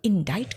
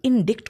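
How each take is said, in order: First: The c is silent and the i is long. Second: The c is pronounced as a k sound. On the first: The speaker calls it right. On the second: The speaker calls it wrong.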